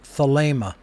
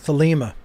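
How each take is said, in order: First: The second vowel is a long A sound. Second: The second vowel is not a long A. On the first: The speaker calls it right. "the word thelema is pronounced just as I pronounced it" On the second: The speaker calls it wrong. "that's just a bastardization of the pronunciation"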